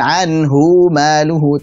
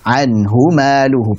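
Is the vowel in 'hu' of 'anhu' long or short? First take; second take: long; short. First: The vowel after 'h' in 'anhu' is lengthened. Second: The vowel after 'h' in 'anhu' is kept short. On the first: The speaker calls it wrong. "maka bukan" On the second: The speaker calls it right.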